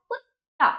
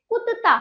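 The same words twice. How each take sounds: First: कुत्ता higher, split kut-taa; correct half त. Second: कुत्ता higher, as ku-ta-taa; wrong full त. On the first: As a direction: hold the double त in कुत्ता with no vowel between. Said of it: "तो क्या हुआ?". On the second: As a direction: put a vowel after first त in कुत्ता. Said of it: "पूरा ता होता तो आप क्या कहते?". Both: Shown as a demonstration.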